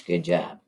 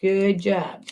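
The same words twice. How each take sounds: First: A hushed, breathy repeat of the praise; teacher quietly praising the class; whisper. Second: Said in the usual way. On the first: Real, not acted. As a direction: whisper the praise back softly. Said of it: "I got a little excited".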